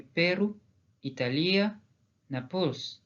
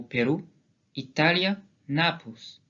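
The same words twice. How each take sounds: First: "Pérou", "Italia", "Naples" with shifted stress; "Italia" stressed on LI, "Naples" on its last syllable; stress without written accent. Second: "Pérou", "Italia", "Naples" stressed early as Gascon words; stress on accented vowel. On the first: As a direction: move the weight later in "Italia" and "Naples". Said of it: "Si ces mots ne portaient pas d'accent". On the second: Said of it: "c'est à ça que servent les accents graphiques". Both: Shown as a demonstration.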